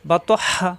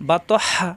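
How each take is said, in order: No difference in how they are said.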